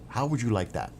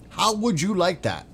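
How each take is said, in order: First: Said in the usual way. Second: Much higher, louder mocking taunt; sing-song gloating challenge. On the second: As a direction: rub it in with a high jeering lilt.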